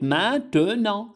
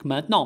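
First: The middle vowel is fully pronounced between consonants. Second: The middle vowel is dropped between the consonants. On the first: "Но не в случае «Schtroumpf à lunettes»... Он говорит «maintenant»" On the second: "правильно и в большинстве случаев читается как «maintenant»"

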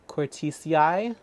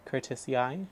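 First: The name is said in a fancy, elaborate way. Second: The name is said in a plain, simple way.

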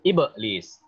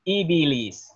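First: The b release does not lean toward i. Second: The b release leans toward the i vowel. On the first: The speaker calls it wrong. "bukan iblis" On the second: The speaker calls it right. "tapi iblis"

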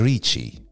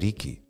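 First: The middle consonant is a ch sound. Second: The middle consonant is a k sound. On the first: The speaker calls it right. "si dice Ricci" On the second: The speaker calls it wrong. "non si dice Ricky"

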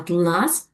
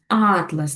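First: The stress is on the second syllable. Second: The stress is on the first syllable. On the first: A type of fabric. "це тканина" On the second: A collection of maps. "наголос падає на перший склад"

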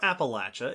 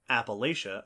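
First: It uses the local regional pronunciation. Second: It uses the general, non-local pronunciation. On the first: "if you're a person that lives around where we are sitting" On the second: "The kind of people that would be mad at me for saying Appalachia"

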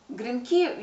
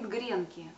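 First: The stress is on the last syllable. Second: The stress is on the first syllable. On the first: "произнеся слово с ударением на последний слог" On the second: "Ставит ударение на первый слог"

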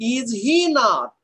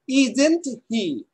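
First: The negative is said in full, unreduced. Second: The negative is contracted into one word.

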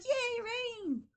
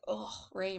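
First: It sounds cheerful and happy. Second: It sounds gloomy and unhappy.

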